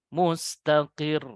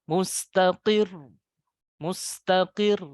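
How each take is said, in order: First: Mustaqir slow, falling, no lift at the end; wrong way. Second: Mustaqir slow, voice higher at the end; correct rising. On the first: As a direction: let mustaqir drop flat. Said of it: "Jadi jangan mustaqir". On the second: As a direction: raise mustaqir properly. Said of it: "Seharusnya dinaikkan". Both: Shown as a demonstration.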